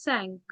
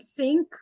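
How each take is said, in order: First: It is said with a French nasal vowel. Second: It sounds like the English word sink. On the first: The speaker calls it right. "it is cinq" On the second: The speaker calls it wrong. "not sink"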